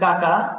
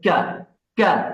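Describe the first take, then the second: First: The k sound is plain, from the front. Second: The k sound is pushed out from deep inside. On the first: The speaker calls it wrong. "তার সঠিক প্রমিত উচ্চারণ হবে না" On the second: The speaker calls it right. "একটা ভিতর থেকে ধাক্কার মতো করে আসে"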